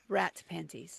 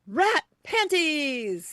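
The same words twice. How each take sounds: First: It is said in a plain, low-energy way. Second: It is said with lively, excited energy.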